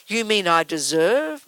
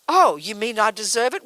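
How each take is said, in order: First: Slow, wondering "You mean I deserve?" rising at the end; drawn out in mild disbelief; slow puzzled question. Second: Affronted, rising "Oh, you mean I deserve it?"; mock offence at being blamed; indignant question. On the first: Retold or imitated. Listener slowly realising the good is deserved too, puzzled. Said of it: "imagined listener asking". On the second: Student taking offence at being told they deserve suffering, indignant. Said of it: "we'll say".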